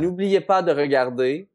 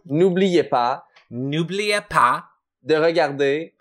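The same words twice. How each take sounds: First: The phrase is spoken at a normal pace. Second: The phrase is spoken slowly.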